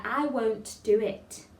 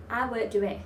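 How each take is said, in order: First: "won't do it" slowly, each T crisply released; every T sounded. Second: "won't do it" run together, Ts unreleased; dropped Ts. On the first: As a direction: finish "won't" and "it" on clear Ts. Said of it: "try and say them all". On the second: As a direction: let the T of "won't" and "it" slip away. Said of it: "so not". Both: Shown as a demonstration.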